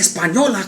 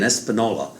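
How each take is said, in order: First: The name is said with a Spanish pronunciation. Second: The name is said with an English-style pronunciation. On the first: The speaker calls it right. "se dice Española" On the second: The speaker calls it wrong. "I should have known better"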